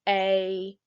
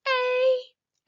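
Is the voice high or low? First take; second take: low; high. First: It is said in a low voice. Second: It is said in a high voice.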